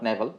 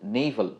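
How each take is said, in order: First: The first vowel sounds like "eh". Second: The first vowel sounds like "ay". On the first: The speaker calls it wrong. "Not নেভাল" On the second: The speaker calls it right. "Sorry নেইভাল"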